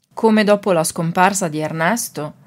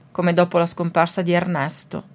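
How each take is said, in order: Both takes have the same delivery.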